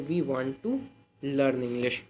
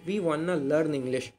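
First: 'Want to' is said in full. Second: 'Want to' is reduced to 'wanna'. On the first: It is formal speech. "फॉर्मल तरीके से" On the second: It is casual speech. "वाना के use से"

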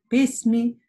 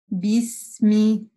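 First: The first consonant is a voiceless p sound. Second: The first consonant is a voiced b sound. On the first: The speaker calls it wrong. "букву «б» часто оглушают" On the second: The speaker calls it right. "Четко вы должны услышать букву «б»"

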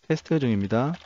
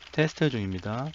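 First: Keyboard noise is heard only while the voice speaks. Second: Keyboard noise is heard constantly behind the voice. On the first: "노이즈 게이트를 켜고 키보드를 두드려 보겠습니다" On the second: "노이즈 게이트 기능은 끄고 진행하겠습니다. 먼저 키보드 소리입니다"

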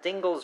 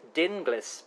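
First: The name is said to rhyme with shingles. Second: The name is said not rhyming with shingles. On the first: "rhymes with shingles" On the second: "as you've said, rightly so, I believe"

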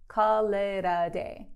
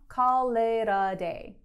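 The two takes are said the same way.

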